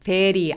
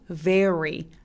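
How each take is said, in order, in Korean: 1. 혀가 입천장에 닿아요. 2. 혀가 입천장에서 떨어져 있어요. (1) "re 천장에 혀 닿으면 안 돼요" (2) "입술 내밀기"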